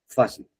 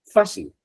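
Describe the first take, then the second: First: Said in the usual way. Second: "Fácil" with FÁ pitched high; teacher spotlights "Fácil" with a high FÁ; stressed high. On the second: Shown as a demonstration. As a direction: lift "Fácil" high on its first syllable. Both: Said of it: "Miremos aquí".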